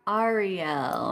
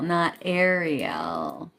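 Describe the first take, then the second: First: The first syllable sounds like the letter R. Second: The first syllable does not sound like R. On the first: The speaker calls it right. "think R" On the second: The speaker calls it wrong.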